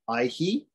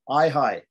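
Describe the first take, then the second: First: The vowel after the h is i. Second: The vowel after the h is ai. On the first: The speaker calls it right. "only the I and the U parts are echoed" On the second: The speaker calls it wrong. "some people might wrongly say"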